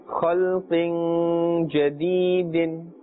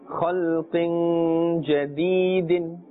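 The two takes are said the same way.

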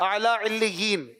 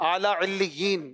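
Both takes have the same delivery.

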